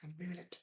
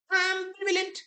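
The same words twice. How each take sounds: First: Said in the usual way. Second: Announced option. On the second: Shown as a demonstration. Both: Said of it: "what is the author's attitude".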